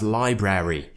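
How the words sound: The word is said in a non-British way. The speaker calls it wrong. "it's not pronounced as library"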